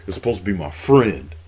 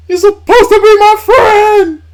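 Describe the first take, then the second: First: Quoted lightly, barely above his own voice; a touch of betrayed wrestler, understated; mild imitation of a hurt Batista. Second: Shrieked much higher and louder, slow and drawn out; screaming Batista imitation. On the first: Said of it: "And Batista was like". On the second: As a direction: scream the betrayal at full force. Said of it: "And then he was like".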